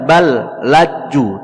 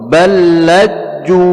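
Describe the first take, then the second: First: The two L sounds are pronounced separately. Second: The first L merges into the second L. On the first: The speaker calls it wrong. "tidak dibaca bal laju" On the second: The speaker calls it right. "langsung diidghamkan kepada lam yang kedua"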